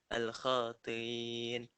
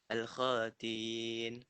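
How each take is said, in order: Both takes have the same delivery.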